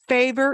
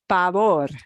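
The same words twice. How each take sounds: First: The stress is on the first syllable. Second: The stress is on the last syllable.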